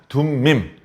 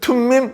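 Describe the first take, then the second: First: The first consonant is soft and unaspirated. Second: The first consonant is strong and aspirated. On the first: The speaker calls it right. "발음을 부드럽게 하는 거죠" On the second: The speaker calls it wrong. "발음을 세게 하면 안 돼요"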